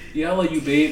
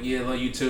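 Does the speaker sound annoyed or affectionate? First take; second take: affectionate; annoyed. First: It is said in a warm, sincere tone. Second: It is said in an annoyed, dismissive tone.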